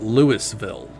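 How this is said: It uses a pronunciation heard outside the region. The speaker is not from the region. The speaker calls it wrong. "others, you know, not in the region might call it"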